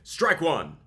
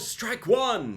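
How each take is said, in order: First: It sounds firm and authoritative. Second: It sounds hesitant and lacking authority. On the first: The speaker calls it right. "with a tone of authority" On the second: The speaker calls it wrong. "instead of like, oh"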